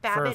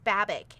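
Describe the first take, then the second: First: The name ends with a soft 'j' sound. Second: The name ends with a hard 'k' sound. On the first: The speaker calls it wrong. "I've said it Babbage for so long" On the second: The speaker calls it right. "I was told it's Babick"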